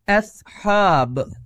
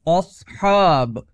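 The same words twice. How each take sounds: First: The hamza is thin, with an e-like sound. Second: The hamza is heavy, with an o-like sound. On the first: The speaker calls it right. "ए दुरुस्त है" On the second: The speaker calls it wrong. "ओ गलत है"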